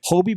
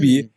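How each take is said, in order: First: The first vowel sounds like 'oh'. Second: The first vowel sounds like 'oo'. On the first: The speaker calls it right. "is it the the Hobie Baker?" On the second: The speaker calls it wrong. "My bad, not"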